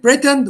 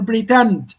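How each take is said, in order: First: "pretend" as PRE-tend; stress on first syllable. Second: "pretend" as pre-TEND; stress on second syllable. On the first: Teacher gives students a choice, "pretend" stressed at the front. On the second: Teacher gives the other choice, "pretend" stressed at the end. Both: Shown as a demonstration. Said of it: "stress here lies on the second syllable".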